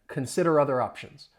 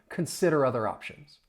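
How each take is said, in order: The two takes are said the same way.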